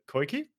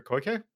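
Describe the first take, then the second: First: Koike ending in an "ee" sound; unsure try at Koike, last vowel "ee"; pronunciation attempt. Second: Koike ending in an "eh" sound; second guess at Koike, last vowel "eh"; alternative pronunciation. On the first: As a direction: say Koike as "koy-kee". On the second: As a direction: say Koike as "koy-keh". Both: Shown as a demonstration. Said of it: "That's how you pronounce that?".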